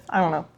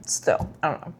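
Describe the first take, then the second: First: Said in the usual way. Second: Whisper. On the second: Real, not acted. Unsure about the book's ending.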